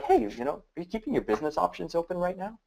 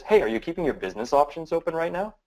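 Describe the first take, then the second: First: Pushy drill sergeant grilling, fast. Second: Easy, curious question, no pressure; just curious. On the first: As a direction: fire the question at them like a drill sergeant. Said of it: "I'm drilling you as a drill sergeant". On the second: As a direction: ask it lightly, genuinely curious. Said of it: "One's just curious". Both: Shown as a demonstration.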